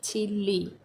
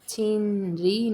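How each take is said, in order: First: The middle is pronounced as a double l. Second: The middle is pronounced as n followed by r. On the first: The speaker calls it right. "हम इसे चिल्ली pronounce करेंगे" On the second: The speaker calls it wrong. "छीन री नहीं प्रोनाउंस करेंगे"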